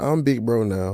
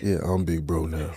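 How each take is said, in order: First: It is said in a normal voice. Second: It is said in a put-on voice.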